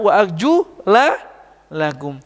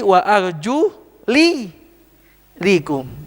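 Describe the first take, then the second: First: The vowel before -kum is an 'a' sound. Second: The vowel before -kum is an 'i' sound. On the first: The feet are only washed. "Kalau dibaca fathah" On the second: The feet may also be wiped. "lanya dibaca kasroh"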